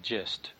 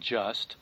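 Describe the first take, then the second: First: The word is said with a vowel like 'gist'. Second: The word is said with a standard vowel. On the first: "I will often say gist" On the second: "Instead of saying just"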